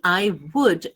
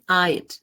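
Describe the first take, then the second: First: Both words are said fully and separately. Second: The words merge into one short syllable. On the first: "I would sounds very different from I'd" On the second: "in the contracted form"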